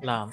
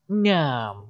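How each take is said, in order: First: The word begins with an L sound. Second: The word begins with a nasal N-type sound. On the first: The speaker calls it right. "we say it like a L" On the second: The speaker calls it wrong. "remember we don't say ngam"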